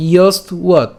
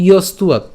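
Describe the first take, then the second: First: ইয়স্তুয়াত split after the st, then uat; broken into parts. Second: ইয়স্তুয়াত run together as one word. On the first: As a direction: break ইয়স্তুয়াত into two separate pieces. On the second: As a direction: join ইয়স্তুয়াত without a break. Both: Shown as a demonstration. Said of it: "একসাথে বললে".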